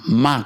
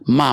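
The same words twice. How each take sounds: First: The syllable carries the tone meaning horse. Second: The syllable carries the tone meaning mother. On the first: The word means horse. "ma kuda" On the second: The word means mother. "ma mama"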